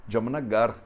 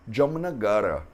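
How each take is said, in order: First: "Jamnagar" ending on a bare R with no vowel; final A dropped. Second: "Jamnagara" pronounced with every A, ending on a short A; full final A. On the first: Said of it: "Como se fosse um R sem nenhuma vogal". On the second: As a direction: say "Jamnagara" keeping the last vowel. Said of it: "como ela termina com um A curto". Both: Shown as a demonstration.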